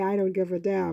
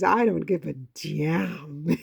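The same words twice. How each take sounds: First: The word damn is pronounced the ordinary way. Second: The word damn is pronounced in an imitated way. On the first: "He doesn't say" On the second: "This is how my father says the word"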